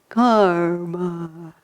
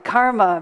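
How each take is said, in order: First: It sounds limp and collapsing, low in energy. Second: It sounds firm and grounded, full of energy. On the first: Nothing can be done about one's fate. The speaker calls it wrong. "they use the word karma like this, ... like it's a collapsing concept" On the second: One can change one's fate and make it happen. The speaker calls it right. "with both feet planted ... like this"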